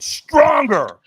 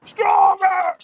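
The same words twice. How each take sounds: First: Loud, high coaching shout; trainer's demand. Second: Very high, loud drawn-out scream; screamed demand. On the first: Trainer demands more from a firewalker, shouted command. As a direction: push them with a raised voice. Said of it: "And he went". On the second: Trainer screams at a holding-back firewalker, full retold scream. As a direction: scream it like a hype coach. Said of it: "He screams at me". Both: Retold or imitated.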